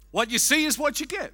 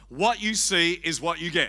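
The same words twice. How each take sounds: First: It is said in a put-on comic voice. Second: It is said in a plain, ordinary voice.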